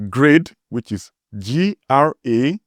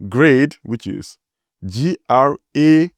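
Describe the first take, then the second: No difference in how they are said.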